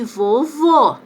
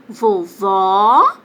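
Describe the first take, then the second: First: "vovô" com o O final fechado; vogal fechada. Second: "Vovó" com o O final bem aberto; vogal aberta. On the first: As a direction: feche a boca no último O de "vovô". ("vovô" lento, com som fechado) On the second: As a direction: abra a boca no último O de "Vovó", com força. ("Vovó" com som aberto e alongado) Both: Shown as a demonstration. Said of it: "Olha como muda a pronúncia".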